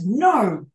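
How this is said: It sounds firm and final, like a flat statement. The speaker definitely means no. "it's like a definite declarative, definitely mean that"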